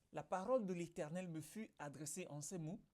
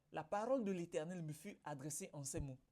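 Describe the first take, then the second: The two takes are said the same way.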